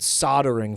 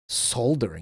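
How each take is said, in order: First: The L sound in the word is dropped. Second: The L sound in the word is clearly pronounced. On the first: "Like we we completely drop the L" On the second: "they pronounce the L there"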